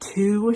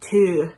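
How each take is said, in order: First: The word 'to' sounds American. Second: The word 'to' sounds German-like. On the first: This is the usual way she avoided. "she doesn't say like to" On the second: This is how she actually sang it. "she says to. That feels German to me"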